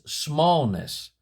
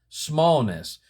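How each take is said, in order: The two takes are said the same way.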